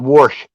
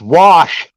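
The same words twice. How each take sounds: First: The word is said with an r sound. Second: The word is said without an r sound. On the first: The speaker calls it wrong. "That makes you sound like a hick" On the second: The speaker calls it right. "There ain't no R in that freaking name"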